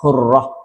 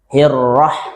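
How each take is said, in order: First: The first vowel is darkened toward a 'u' sound. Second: The first vowel is a clear 'i' sound. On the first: The speaker calls it wrong. "Jangan juga terkesan sampai hurrah" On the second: The speaker calls it right. "Hi, hi tetap hirrah"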